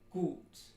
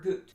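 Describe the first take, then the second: First: The vowel is long, tense, back and steady. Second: The vowel is cut short. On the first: The speaker calls it right. "So it should be gut" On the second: The speaker calls it wrong. "That's not long enough"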